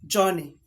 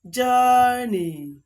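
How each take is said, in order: First: The first vowel is not a long 'er' sound. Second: The first vowel is a long 'er' sound. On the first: The speaker calls it wrong. "This word is not Johnny" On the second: The speaker calls it right. "is journey"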